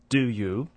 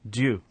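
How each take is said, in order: First: The two words are said separately and fully. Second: The two words merge into one syllable.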